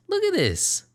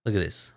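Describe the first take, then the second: First: High squeal. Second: Said in the usual way. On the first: Real, not acted. Repeats line in squeal.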